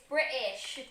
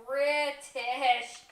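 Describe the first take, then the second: First: "British" with the T dropped; "British" as Bri'ish, no T in the middle. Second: "British" with the T clearly sounded; "British" drawn out, T fully released; T pronounced. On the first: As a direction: say "British" with a glottal stop for the T. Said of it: "You're not supposed to have the tea". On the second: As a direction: say "British" with a crisp T in the middle. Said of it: "not supposed to have the tea". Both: Shown as a demonstration.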